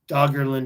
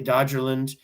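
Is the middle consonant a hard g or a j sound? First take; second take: hard g; j sound. First: The middle consonant is a hard g. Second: The middle consonant is a j sound. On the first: The speaker calls it right. "is the the correct way to say it" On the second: The speaker calls it wrong. "I always want to say Dodgerland"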